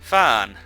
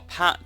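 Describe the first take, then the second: First: The name begins with an f sound. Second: The name begins with a p sound. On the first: "I pronounce it Fan" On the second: "People pronounce it Pan"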